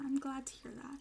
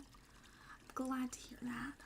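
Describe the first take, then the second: First: Said in the usual way. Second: Slow soft whisper. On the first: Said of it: "first plain take". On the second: Shown as a demonstration. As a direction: breathe it out slowly. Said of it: "repeated line, whispered slow take".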